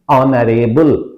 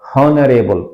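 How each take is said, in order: First: The word begins with a vowel, H silent. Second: The word begins with a sounded H. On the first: The speaker calls it right. "the correct pronunciation is honorable" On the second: The speaker calls it wrong. "not honorable. Often people mispronounce"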